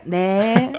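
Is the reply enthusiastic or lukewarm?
lukewarm. The reply sounds flat and lukewarm.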